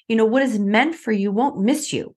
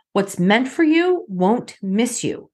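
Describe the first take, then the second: First: Said in the usual way. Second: Slowed right down, each word weighted; slow and deliberate. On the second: Shown as a demonstration. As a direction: let the mantra land slowly.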